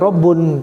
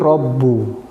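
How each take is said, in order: First: The word ends with an n sound. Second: The word ends with a vowel. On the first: The speaker calls it wrong. "tidak boleh Rabbun" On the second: The speaker calls it right. "tapi Rabbu"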